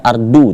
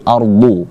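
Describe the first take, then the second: First: The consonant is a light, plain d. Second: The consonant is heavy and thickened. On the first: The speaker calls it wrong. "jangan dibaca seperti huruf dal pula" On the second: The speaker calls it right. "agak ditebalkan seperti itu"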